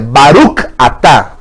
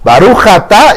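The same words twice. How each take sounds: First: The voice stops briefly between the two words. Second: The two words run together without a break. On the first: It says 'blessed are You'. The speaker calls it right. "se para" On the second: It sounds like saying 'blessed sin'. The speaker calls it wrong. "se agarraron de corridito"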